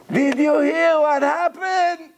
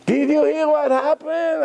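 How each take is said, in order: First: High, slow, almost crying; near tears. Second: Near tears. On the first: Broker breaking bad news, high slow near-tearful voice. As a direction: mimic a broker on the verge of tears. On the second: Broker repeating the news, high upset voice. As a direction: ask it like a frantic broker. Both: Retold or imitated. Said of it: "She's almost crying".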